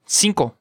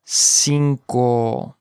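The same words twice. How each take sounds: First: Said in the usual way. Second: "Cinco" in two long syllables; slow model. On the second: Shown as a demonstration. Teacher modelling vocabulary for learners, slow "Cinco".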